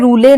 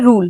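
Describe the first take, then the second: First: The word ends with an extra 'e' vowel. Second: The word ends on the consonant, no vowel. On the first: The speaker calls it wrong. "हम इसे रूले नहीं पढ़ेंगे" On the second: The speaker calls it right. "हम इसे पढ़ेंगे रूल"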